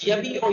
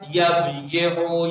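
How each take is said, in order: First: A long i follows the b directly. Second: A separate y-syllable is said after the b. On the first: The speaker calls it right. "अब सही हुआ ये जाके" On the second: The speaker calls it wrong. "वरना कैसे गर्दान करते?"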